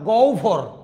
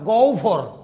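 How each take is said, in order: First: The middle cluster is said as u plus bh. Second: The same.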